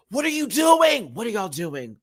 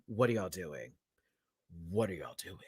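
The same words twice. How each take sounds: First: Exasperated. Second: Much lower and far softer, near a mutter; fading disbelief. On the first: Outraged at contestants' votes. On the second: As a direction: let it die away in disbelief. Repeats question, trailing off. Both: Real, not acted.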